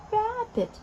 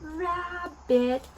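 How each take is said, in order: First: "Rabbit" quicker, pitched high then falling; lively word repeat. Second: "rabbit" stretched slowly into two syllables, pitched up; drawn-out demonstration. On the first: Repeats the taught word more quickly. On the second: Teaching the word to small children. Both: Shown as a demonstration.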